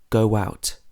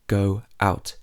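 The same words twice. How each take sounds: First: A glide sound links go and out. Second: No glide sound between go and out. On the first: The speaker calls it right. "we would normally say go out" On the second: The speaker calls it wrong. "not go out"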